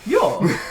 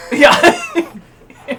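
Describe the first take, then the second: First: Said in the usual way. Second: High, loud cooing dog voice; baby talk to pet. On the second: Acted. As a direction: coo it like talking to a puppy. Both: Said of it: "That's the voice I use for my dog".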